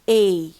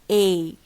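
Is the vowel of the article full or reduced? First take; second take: full; full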